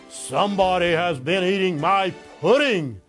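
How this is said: It is said in a great big voice.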